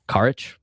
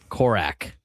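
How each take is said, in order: First: The name ends with an 'itch' sound. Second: The name ends with an 'ak' sound. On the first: The speaker calls it wrong. "We were mispronouncing his name the entire time" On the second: The speaker calls it right. "It's Korak"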